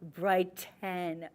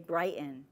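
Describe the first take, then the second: First: The middle T sound is clearly pronounced. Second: The middle T sound is dropped. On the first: It is the careful, non-regional way of talking. "I actually was very careful to enunciate the T" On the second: It is a regional way of talking. "we say brighten and we blank out that T"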